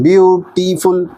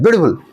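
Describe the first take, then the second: First: "beautiful" slowly split into three beats; broken into syllables. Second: "beautiful" run together quickly as one burst. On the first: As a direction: say "beautiful" syllable by syllable, with small breaks. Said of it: "हम रुक कर नहीं बोलते हैं". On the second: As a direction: rattle off "beautiful" without any break. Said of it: "एक ही झटके में नहीं बोलते हैं". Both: Shown as a demonstration.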